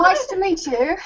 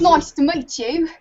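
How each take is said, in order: First: A higher, put-on English voice for a greeting; tentative British accent on the spot; mock British accent. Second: Cockney try. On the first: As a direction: try out a posh English hello, shyly. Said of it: "Go on, give it a go". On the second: Pretend. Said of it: "I can get really cockneyed with it".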